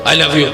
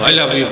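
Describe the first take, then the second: The two takes are said the same way.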